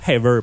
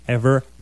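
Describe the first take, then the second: First: The word begins with an h sound. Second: The word begins directly with a vowel. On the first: The speaker calls it wrong. "Pas ever" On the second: The speaker calls it right. "il n'y a pas de H au début de ever"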